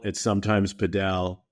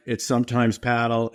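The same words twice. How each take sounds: First: Padel as puh-DELL; puh-DELL for padel, stress on the end; second-syllable stress. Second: Paddle as PAD-ul, short "a" as in cat; first-syllable stress. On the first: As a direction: say padel with a weak first vowel and stressed DELL. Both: Shown as a demonstration. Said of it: "Up here in New York".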